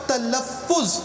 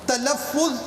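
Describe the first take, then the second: No difference in how they are said.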